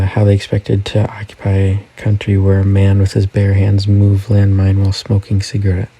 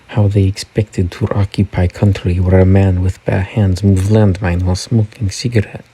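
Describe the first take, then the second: First: It is read in the speaker's plain accent. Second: It is read in a put-on Russian accent.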